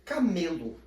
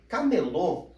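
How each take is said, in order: First: CAMELO with the middle ME stressed, closed o ending; stress on the middle syllable. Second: CAMELÔ with a strong final LÔ; stress on the last syllable. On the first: Teacher showing how accents change words, Camelo stressed on ME. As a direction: say Camelo leaning on ME. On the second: Teacher showing how accents change words, Camelô stressed on LÔ. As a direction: punch the end of Camelô. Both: Shown as a demonstration. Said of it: "percebem a diferença de um acento".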